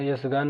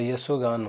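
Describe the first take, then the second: First: "यशगान" with no o in the middle; wrong pronunciation. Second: "यशोगान" with an o after sh; correct pronunciation. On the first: Teacher shows what it is not, "यशगान" as yash-gaan. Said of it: "नहीं होता". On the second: Teacher gives the proper form, "यशोगान" as ya-sho-gaan. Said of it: "होता है". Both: Shown as a demonstration.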